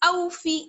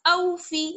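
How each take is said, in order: Both takes have the same delivery.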